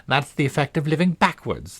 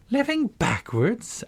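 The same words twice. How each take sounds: First: Said in the usual way. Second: High, slow, astonished question on "Living backwards"; great astonishment. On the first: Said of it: "the Queen said kindly". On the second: Acted. Alice echoing the Queen's odd claim, astonished. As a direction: gasp the words back in disbelief. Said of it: "Alice repeated in great astonishment".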